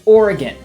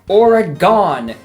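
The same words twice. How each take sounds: First: The name is said the way locals say it. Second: The name is said the way outsiders say it. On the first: The speaker calls it right. "It is Oregon. All of us say Oregon" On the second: The speaker calls it wrong. "every goddamn person on the planet seems to say Oregon"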